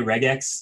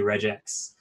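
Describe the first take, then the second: First: The first syllable sounds like the start of 'regular'. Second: The first syllable does not sound like 'regular'. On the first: "I say regex usually, just because it's like reg, regular expressions" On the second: "a lot of people who say regex"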